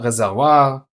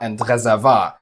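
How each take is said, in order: First: The last syllable has a wa sound. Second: The last syllable has a plain vowel. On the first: The speaker is very educated. "able to pronounce this sound" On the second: This is the common everyday German usage. "my people say"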